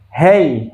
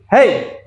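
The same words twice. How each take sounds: First: It is said calmly. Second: It is said angrily.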